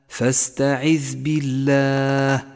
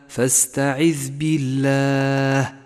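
Both takes have the same delivery.

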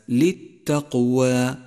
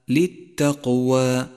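Both takes have the same delivery.

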